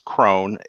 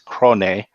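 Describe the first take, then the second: First: The name is said as one syllable. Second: The name is said as two syllables. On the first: "it is Crone" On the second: "that's how you would pronounce that in Japanese"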